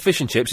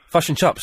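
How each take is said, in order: First: It is said in a plain, non-Kiwi accent. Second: It is said in a New Zealand accent.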